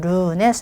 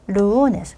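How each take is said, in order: First: The stress is on the second syllable. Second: The stress is on the first syllable. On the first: The speaker calls it wrong. "루네스 아니고" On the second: The speaker calls it right. "끝에서 두 번째 뭐요? 바울을 봐야죠"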